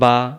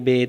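First: The letter name ends in an 'ah' vowel. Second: The letter name ends in an 'eh' vowel. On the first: The speaker calls it right. "তাহলে এই অক্ষরের নাম বা" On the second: The speaker calls it wrong. "এরকম যারা পড়বেন তাদের উচ্চারণ সহি হবে না, ভুল হবে"

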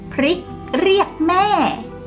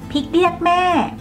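First: The r sounds are pronounced fully. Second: The r sounds are relaxed and dropped.

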